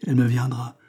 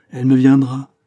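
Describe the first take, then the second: First: Mildly sulky echo of his words; "Elle me viendra" repeated back, grudging and restrained; grumpy child. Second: Loud, stubborn insistence; grumpy child. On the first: Woman mocks the priest's assurance, mildly grumpy. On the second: Woman insists back at the priest, grumpy and loud. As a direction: dig in like a grumbling child, much louder. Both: A narrator's reading. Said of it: "à la façon des enfants grognons".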